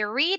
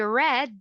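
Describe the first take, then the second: First: The vowel is long, like 'seed'. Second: The vowel is short, like 'bed'. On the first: It happens regularly now. "I read a book every day" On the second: It happened in the past. "I read a beautiful book last night"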